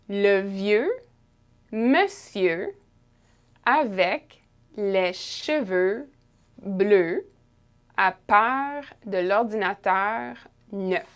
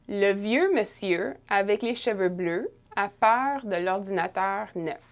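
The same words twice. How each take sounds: First: It is read slowly with carefully pronounced sounds. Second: It is read at a normal conversational speed.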